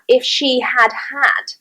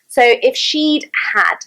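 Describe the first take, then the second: First: The first had is said as a full word. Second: The first had is contracted onto she. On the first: The speaker calls it wrong. "we can actually have" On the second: The speaker calls it right. "sounds much more natural"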